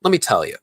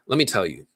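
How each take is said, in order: First: Slightly higher, louder British attempt; attempted British accent. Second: Said in the usual way. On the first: Quoting John Boyega's interview, attempted British accent. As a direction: have a tentative go at British. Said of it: "I can't do the British accent". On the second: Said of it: "do it in my voice".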